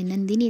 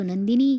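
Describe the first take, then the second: First: A milder cry of the name, rising at the end; mild call out. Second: Loud cry of her name as she is attacked; alarmed shout. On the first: Sharda cries out to her fallen daughter, mild rising call. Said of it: "Sharda ओरडते". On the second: Parth sees the knife attack and shouts to Nandini, loud alarmed cry. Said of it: "Parth बघतो आणि ओरडतो". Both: Retold or imitated.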